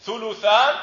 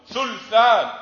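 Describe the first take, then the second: First: ثلثان as thuluthan, u after the l; three loud, high syllables in ثلثان, thu-lu-than; damma on lam. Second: ثلثان as thulthan, no vowel after l; slow, loud thul-than for ثلثان; sukun on lam. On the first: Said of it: "إما ضم اللام". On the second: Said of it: "أو إسكانها". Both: Shown as a demonstration.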